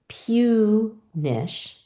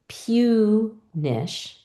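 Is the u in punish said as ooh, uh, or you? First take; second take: you; you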